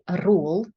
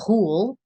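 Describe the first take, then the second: First: The R sound is made with the tongue tip. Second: The R sound is made in the throat. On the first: "Nothing in the tip of the tongue. So we don't want to say rule" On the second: "Nothing in the throat. We don't want to say rule"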